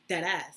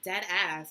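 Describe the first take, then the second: First: It is said in the speaker's own natural way. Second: It is said as a mocking imitation of another. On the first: This is how the speaker's community says it. The speaker calls it right. "that's how we say it. We say it dead ass" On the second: This is how an outsider said it. The speaker calls it wrong. "she was just like, yeah, I'm dead ass, and I'm like, ew"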